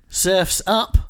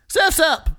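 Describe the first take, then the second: First: It is said flatly, without excitement. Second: It is said with excited, exclamatory energy.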